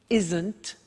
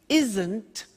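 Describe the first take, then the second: Both takes have the same delivery.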